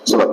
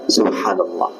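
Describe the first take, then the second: First: It is said rushed and clipped, hard to understand. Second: It is said slowly and fully, every syllable clear. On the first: The words are recited without attention to their meaning. The speaker calls it wrong. "Nggak ketahuan nih ngomong apa" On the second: The words are recited while absorbing their meaning. The speaker calls it right. "Sambil meresapi apa yang dibaca"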